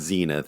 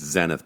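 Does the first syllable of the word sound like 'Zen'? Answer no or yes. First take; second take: no; yes. First: The first syllable does not sound like Zen. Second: The first syllable sounds like Zen. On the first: The speaker calls it wrong. "It's not Zenith" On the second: The speaker calls it right. "it's Zenith because of Zen"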